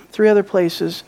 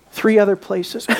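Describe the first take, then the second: No difference in how they are said.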